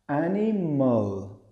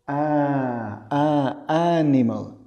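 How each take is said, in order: First: The vowels are softened toward a schwa. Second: The vowels are full, clear Spanish vowels. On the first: The speaker calls it right. "En inglés es muchísimo más suave, es animal" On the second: The speaker calls it wrong. "y no es animal"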